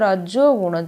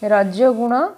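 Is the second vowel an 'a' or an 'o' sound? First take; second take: o; a. First: The second vowel is an 'o' sound. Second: The second vowel is an 'a' sound. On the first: The speaker calls it right. "ଜରେ ଓକାର" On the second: The speaker calls it wrong. "ରଜଗୁଣ ହେଉଛି ଅଶୁଦ୍ଧ"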